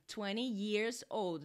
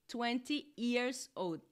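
First: Years starts with a clear y sound. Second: Years starts with a plain vowel, like ears. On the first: The speaker calls it right. "o certo é years, yi, yi, yi" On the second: The speaker calls it wrong. "Não"

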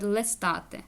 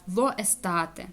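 First: The article's vowel is dropped and merged in. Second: The article keeps its own separate vowel sound. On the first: The speaker calls it right. "тому просто вони говорять лестати" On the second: The speaker calls it wrong. "воно некрасиво"

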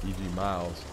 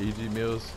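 First: The last word has a long 'eye' sound. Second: The last word has a short 'i' sound. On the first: The speaker calls it right. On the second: The speaker calls it wrong.

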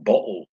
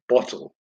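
First: The t is replaced by a glottal stop. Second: The t is pronounced as a clear t. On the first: The speaker calls it wrong. "using the glottal stop and saying bottle" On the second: The speaker calls it right. "instead of bottle"

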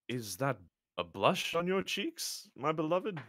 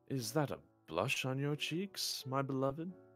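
First: It is said plainly, without seduction. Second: It is said in a seductive, flirty way.

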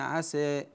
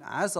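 First: The final vowel is long and slightly tilted. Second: The final vowel is short and runs on. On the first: The reciter pauses on this word. "فإذا وقفنا عليها قللنا الألف قلنا عسى هكذا" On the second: The word is joined to the next word. "لكن عند الوصل نقول عسى الله"

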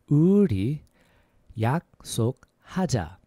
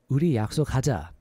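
First: It is said at a slower pace. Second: It is said at a faster pace.

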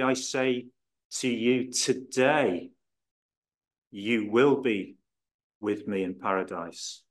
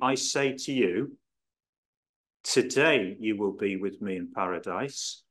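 First: The pause comes after the word today. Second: The pause comes before the word today.

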